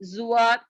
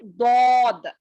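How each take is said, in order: First: It begins with a light z-like sound. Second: It begins with a heavy d-like sound. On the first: The speaker calls it wrong. "लेकिन ये गलत है" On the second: The speaker calls it right. "इसको जो है दौद पढ़ना है"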